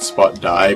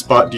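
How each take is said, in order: First: The name ends with a 'die' sound. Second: The name ends with a 'dee' sound. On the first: The speaker calls it wrong. "and not Spot Die" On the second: The speaker calls it right. "I'd assume it's Spot D"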